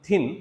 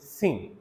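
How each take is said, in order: First: The word begins with a th sound. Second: The word begins with an s sound.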